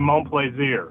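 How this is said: The name is said with a French pronunciation.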